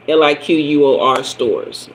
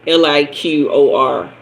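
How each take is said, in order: First: Spelled out as "L I Q U O R", now with the U put back; corrected spelling. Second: Spelled out slowly as "L I Q O R", leaving out the U; misspelled. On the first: Correcting herself on the State store spelling, "L I Q U O R" with the U. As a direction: spell "L I Q U O R" letter by letter, with the U. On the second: Explaining Alabama State stores, a slow wrong spelling "L I Q O R". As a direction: spell "L I Q O R" letter by letter, without the U. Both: Shown as a demonstration.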